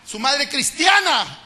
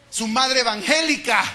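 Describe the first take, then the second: First: "cristiana" stretched very slowly, higher and louder; very slow emphatic cristiana. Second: "evangélica" drawn out slowly and louder; slow emphatic evangélica. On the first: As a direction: hammer "cristiana" home. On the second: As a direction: lean on "evangélica" to confront the church. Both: Shown as a demonstration.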